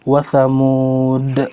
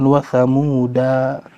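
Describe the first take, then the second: First: The final word ends on a consonant, no vowel. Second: The final word ends with an added a vowel. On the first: The speaker calls it right. "mau berhenti wa samud" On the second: The speaker calls it wrong. "bukan wa samuda"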